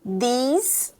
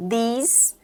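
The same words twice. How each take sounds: The two takes are said the same way.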